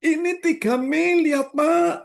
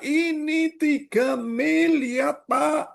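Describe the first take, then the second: First: Said in the usual way. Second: "miliar" drawn out slow with a rising pull; slow right down and lean on "miliar"; stress on miliar. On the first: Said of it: "contrasting repetition". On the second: Shown as a demonstration. Pastor drives home the huge loss, stressing "miliar". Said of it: "slowed climactic repetition".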